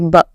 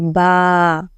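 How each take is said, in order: First: The vowel is short and quick. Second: The vowel is drawn out long. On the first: The speaker calls it wrong. "You now you will not say ba" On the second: The speaker calls it right. "You have to say ba"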